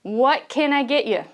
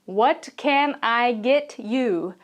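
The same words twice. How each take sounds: First: What can I get you run together, stress on can; connected, quicker What can I get you with can stressed; relaxed native What can I get you; natural linked version. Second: What can I get you said slowly, each word full and distinct; textbook-style What can I get you, every word spelled out; stiff, slow What can I get you; careful, separated words. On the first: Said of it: "They say". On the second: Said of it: "This American does not say". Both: Shown as a demonstration.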